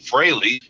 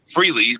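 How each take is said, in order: First: The name rhymes with Haley. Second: The name does not rhyme with Haley. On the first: This is the pronunciation that later spread. The speaker calls it wrong. "we needed to pronounce it Fraley" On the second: This is the original pronunciation of the name. The speaker calls it right. "which is correct back then"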